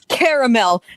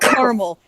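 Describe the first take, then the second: First: The word is said with three syllables. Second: The word is said with two syllables. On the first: The speaker calls it right. "It's also it's caramel" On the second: The speaker calls it wrong. "not caramel"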